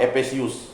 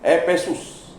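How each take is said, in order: First: An extra 'i' syllable comes before the ending. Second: No extra syllable comes before the ending. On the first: The speaker calls it wrong. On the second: The speaker calls it right.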